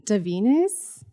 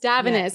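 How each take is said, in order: First: Davines said duh-VEE-ness, rising like a question; unsure "Davines" with the middle syllable stressed as VEE; tentative pronunciation. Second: Davines said DAV-uh-ness, falling; firm "Davines" with stress up front on DAV; corrected pronunciation. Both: Real, not acted. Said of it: "I think you pronounce it".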